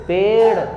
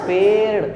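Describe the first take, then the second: Both takes have the same delivery.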